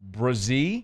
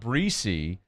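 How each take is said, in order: First: The name sounds like 'Brazee'. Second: The name sounds like 'Breesy'. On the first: The speaker calls it right. "it's Brazee" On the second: The speaker calls it wrong. "It's not Breesy"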